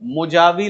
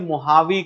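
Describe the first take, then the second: First: The middle consonant is a J sound. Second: The middle consonant is an H sound. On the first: It is read the way it is spelled. The speaker calls it wrong. "मुजावी लिखा होगा" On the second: It follows Spanish pronunciation. The speaker calls it right. "वो जे को एच pronounce करते हैं, इसलिए इसे मोहावी कहा जाता है"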